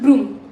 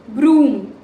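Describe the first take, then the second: First: The oo vowel is short. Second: The oo vowel is long. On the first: The speaker calls it wrong. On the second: The speaker calls it right.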